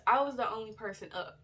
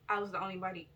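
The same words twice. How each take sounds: First: Said in the usual way. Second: Slurring, tired speech; slurred words. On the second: Real, not acted. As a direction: blur the words together sleepily. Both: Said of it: "why do I keep slurring my words".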